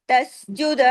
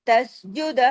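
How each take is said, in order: No difference in how they are said.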